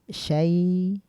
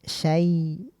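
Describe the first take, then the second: The two takes are said the same way.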